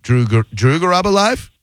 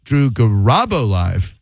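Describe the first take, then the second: First: "Drew Garabo Live" rising high on "Live"; unsure, climbing "Drew Garabo Live?"; questioning tune. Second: Slow "Garabo" swooping up on RA, falling on "Live"; drawn-out "Drew Garabo Live" with a hump in the middle; emphatic middle syllable. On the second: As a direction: stretch and punch RA in "Garabo". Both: Shown as a demonstration. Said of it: "I'm gonna say it another".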